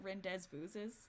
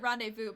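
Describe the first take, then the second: First: The word ends with pronounced s sounds. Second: The word ends on a vowel, without an s. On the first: "he would pronounce it rendezvouses. Like Gaston does" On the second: "I pronounced it rendezvous"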